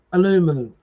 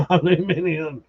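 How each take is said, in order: First: Aluminum said a-LOO-min-um, four syllables; American pronunciation. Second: Aluminium said al-yoo-MIN-ee-um, five syllables; the British Aluminium, flat and falling; British pronunciation. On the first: Streamer contrasting spellings, American Aluminum said a-LOO-min-um. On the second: Streamer contrasting spellings, British Aluminium said al-yoo-MIN-ee-um. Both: Shown as a demonstration. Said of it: "repeated word contrast".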